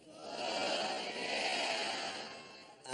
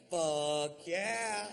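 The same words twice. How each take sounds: First: Low, stretched fuck yeah trailing up; slow, low mock yes with a lifted ending; drawn-out yes. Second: High, loud eager fuck yeah; pumped-up yes to a party invitation; enthusiastic yes. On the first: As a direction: drag the yeah out lazily. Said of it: "let's try it one time". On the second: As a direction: belt it out like the best offer ever. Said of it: "Which is what you say if somebody says". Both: Shown as a demonstration.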